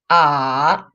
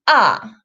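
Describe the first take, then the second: First: The pitch dips low then rises again. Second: The pitch falls sharply from high to low. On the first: "So the full third tone is" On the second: "The fourth tone falls sharply"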